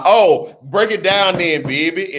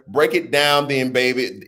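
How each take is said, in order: First: Put-on light New Orleans accent on break it down then, baby; a playful hint of New Orleans accent. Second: Said in the usual way. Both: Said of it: "in my best New Orleans voice".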